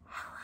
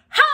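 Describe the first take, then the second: First: It is said very quietly. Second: It is said very loudly.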